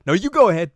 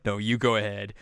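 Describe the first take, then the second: First: Loud, high-pitched polite insistence; insistent deferring. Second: Said in the usual way. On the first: Retold or imitated. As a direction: insist hard that they go first. Polite back-and-forth, first insisting take.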